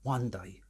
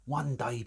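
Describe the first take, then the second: First: Wistful whisper of one day. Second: Said in the usual way. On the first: Real, not acted. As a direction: breathe one day out as a dreamy hope. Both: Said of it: "It's like I work for the B B C".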